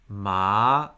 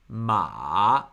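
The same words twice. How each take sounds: First: The syllable is said with the second tone. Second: The syllable is said with the third tone.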